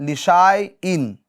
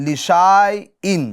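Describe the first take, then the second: Both takes have the same delivery.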